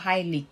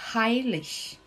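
First: The word ends with a hard g or k. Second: The word ends with a soft ch hiss. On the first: The speaker calls it wrong. "eu não vou falar heilig" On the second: The speaker calls it right. "eu vou pronunciar com som de sh"

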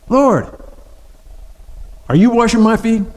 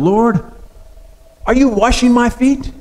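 First: It sounds like an indignant protest. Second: It sounds like a genuine question.

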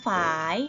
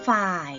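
First: The word is said on a rising tone. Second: The word is said on a low tone. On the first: "เสียงจัตวาค่ะเราต้องเติมไม้จัตวาไหมไม่ต้องเติม" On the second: "เติมไม้เอกลงไปจะเป็นฝ่าย"

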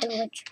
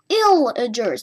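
First: The word begins with an "ell" sound. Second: The word begins with an "ill" sound. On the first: The speaker calls it wrong. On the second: The speaker calls it right.

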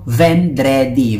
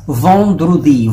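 First: The word is read the way its spelling looks. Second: The word has a native French pronunciation. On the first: The speaker calls it wrong. "pag nakita nyo" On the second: The speaker calls it right. "pronounced as vendredi"

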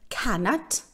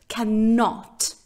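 First: The stress is on the first syllable. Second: The stress is on the second syllable. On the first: "В Америке ударение будет идти на первый слог" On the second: "В Британии ударение будет идти на второй слог"

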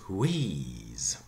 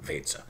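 First: The vowel is an English long 'ee' sound. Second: The vowel is a German long e, like 'ay'. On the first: "English, wheeze" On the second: "the German pronunciation would be Weze. Here we go, very Germanic"

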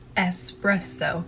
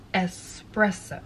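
No difference in how they are said.

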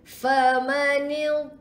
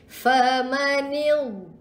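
Both takes have the same delivery.

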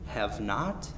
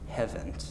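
First: It is said as two full words, 'have not'. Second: It is said as one contracted word, 'haven't'. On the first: "Have and have not can be contracted into haven't" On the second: "contracted into haven't"

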